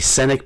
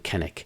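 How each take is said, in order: First: The name begins with an S sound. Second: The name begins with a K sound. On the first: This is how the spelling seems to read. The speaker calls it wrong. "It looks like maybe Sennick" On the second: This is how the name is actually pronounced. The speaker calls it right. "the author claims that you pronounce it actually Kennick"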